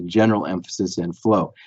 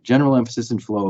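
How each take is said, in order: First: Said in the usual way. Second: "general" gently emphasized, the rest falling away; stress on general. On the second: Shown as a demonstration. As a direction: lean on the word "general". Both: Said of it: "I emphasize the word general".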